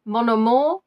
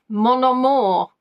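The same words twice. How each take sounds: First: "Mon amour" lifting at the end; questioning rise. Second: "Mon amour" slow, falling at the end; drawn-out falling tune. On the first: Quiz host repeating the French phrase, questioning rise. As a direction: say "Mon amour" as if asking, ending upward. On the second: Quiz host toying with the French answer, drawn-out falling tune. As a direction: stretch out "Mon amour" and let it drop. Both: Acted.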